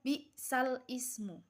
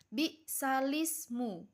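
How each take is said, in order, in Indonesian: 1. Kata kedua dimulai dengan bunyi vokal tersendiri. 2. Kedua kata menyambung tanpa jeda. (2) "sehingga membacanya bi'salismu"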